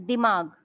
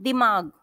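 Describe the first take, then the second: The two takes are said the same way.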